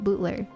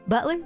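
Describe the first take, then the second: First: The word is said in a country accent. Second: The word is said in a plain accent.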